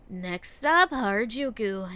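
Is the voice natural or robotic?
natural. It is read in a natural reading voice.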